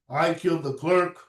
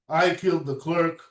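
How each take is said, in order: No difference in how they are said.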